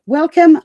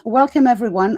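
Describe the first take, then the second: First: A big, bright welcome called out loud and a bit higher. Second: Said in the usual way. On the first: Real, not acted. Host opening the live panel greets everyone, calling out loudly. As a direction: call out the welcome to the whole room.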